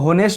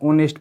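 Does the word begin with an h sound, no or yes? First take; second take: yes; no. First: The word starts with a clear h sound. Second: The word starts directly with a vowel sound. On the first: The speaker calls it wrong. "इसको होनेस्ट नहीं पढ़ते हैं" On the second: The speaker calls it right. "ऑनेस्ट पढ़ते हैं"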